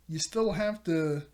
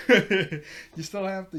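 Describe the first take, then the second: First: Said in the usual way. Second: Louder, slower, each word pressed with a laugh; laughing emphatic repeat. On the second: Shown as a demonstration. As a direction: lean hard on "you still have to", laughing in disbelief.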